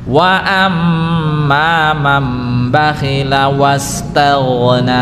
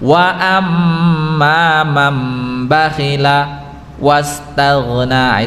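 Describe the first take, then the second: First: The phrase flows straight through without pausing. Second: The phrase is broken by a short pause. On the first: The speaker calls it right. "Ini tidak ada saktah, jadi langsung" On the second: The speaker calls it wrong. "kalau ada saktah kan kayak gini"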